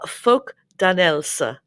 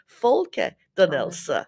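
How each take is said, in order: First: There is no vowel after 'folk'. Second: An extra vowel follows 'folk'. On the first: The speaker calls it wrong. "I've been saying it wrong" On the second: The speaker calls it right. "Is there an E at the end? Yes"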